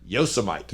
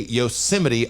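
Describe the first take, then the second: First: It is said the way it is spelled. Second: It is said with the usual pronunciation. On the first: "I've been reading it my entire life as" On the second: "I've never heard anyone say Yosemite aloud"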